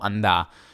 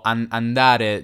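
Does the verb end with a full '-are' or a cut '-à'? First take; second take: cut -à; full -are. First: The final syllable is cut, ending in stressed à. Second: The verb ends with the full syllable -re. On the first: "diciamo andà" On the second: "se stiamo dicendo andare"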